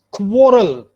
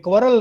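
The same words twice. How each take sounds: First: "quarrel" as KWOR-ul, first syllable stressed; correct pronunciation of quarrel. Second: "quarrel" as KWUH-rul, unrounded first vowel; wrong pronunciation of quarrel. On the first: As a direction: say "quarrel" with a rounded o, loud first beat. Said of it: "this is quarrel". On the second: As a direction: say "quarrel" quickly with a dull uh. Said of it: "ये quarrel नहीं है". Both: Shown as a demonstration.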